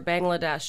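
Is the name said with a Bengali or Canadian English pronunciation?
Canadian English. It has an anglicized Canadian English pronunciation. The speaker calls it wrong.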